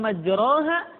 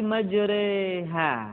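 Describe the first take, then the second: First: The vowel after r is an open a. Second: The vowel after r is tilted toward e. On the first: The speaker calls it wrong. "bukan majraha" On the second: The speaker calls it right. "dibaca miring ke kasrah"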